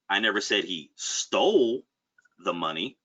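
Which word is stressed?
stole. The word "stole" carries the stress. He may have borrowed it rather than stolen it. "Could be insinuating that maybe he borrowed the money"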